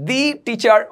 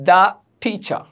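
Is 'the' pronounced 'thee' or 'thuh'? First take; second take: thee; thuh. First: The word 'the' is said as 'thee'. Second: The word 'the' is said as 'thuh'. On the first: The speaker calls it wrong. "আমরা দি teacher বলবো না" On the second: The speaker calls it right. "আমরা বলবো দা teacher"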